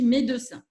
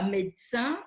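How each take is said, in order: First: The middle E is pronounced, three syllables. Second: The middle E is dropped, two syllables. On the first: This is the regional way of saying it. "À Toulouse, on prononce tous les E" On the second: This is not the regional way of saying it. "On ne dit pas"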